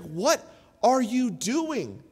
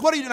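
First: Slow, level, puzzled wife; wife's calm question. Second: Higher, louder alarmed yell; retold yell. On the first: Retold or imitated. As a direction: ask it slowly, calmly, to stop him. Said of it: "my wife pulled me aside and she's like". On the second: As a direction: bark it at the kid in alarm. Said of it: "I would just start yelling at her".

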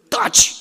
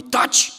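First: Sharp yell pitched much higher and louder; shouting shut up. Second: Whispered taci; a voiceless, dismissive hush; hushed shut up. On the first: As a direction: people shouting down their own body's pain. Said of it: "strigăm". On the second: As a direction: hiss the body into silence without a voice. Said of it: "Dar noi". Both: Retold or imitated.

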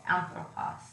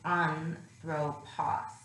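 First: Said in the usual way. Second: Anthropos drawn out slowly, accent on its first syllable; accent at the beginning. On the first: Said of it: "for example". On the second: Shown as a demonstration. Teacher showing where the accent falls, slow accented anthropos. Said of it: "an accent at the beginning".

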